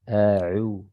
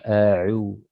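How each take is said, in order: The two takes are said the same way.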